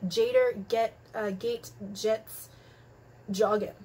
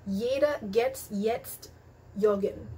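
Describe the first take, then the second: First: The J's sound like an English J. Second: The J's sound like an English Y. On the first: The speaker calls it wrong. "don't go up to your German friends and be" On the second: The speaker calls it right. "Letter J is pronounced as Y"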